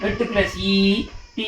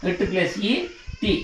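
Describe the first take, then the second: First: Long held ఈ and టీ; long vowel. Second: Short ఈ and brief టీ; short vowel. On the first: Teacher showing sound plus vowel, long held టీ. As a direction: stretch టీ into "tee". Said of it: "ఈ విధంగా". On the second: Teacher showing sound plus vowel, short టీ. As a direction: keep టీ to a quick "ti". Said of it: "ఇక్కడ దీర్ఘం లేదు". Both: Shown as a demonstration.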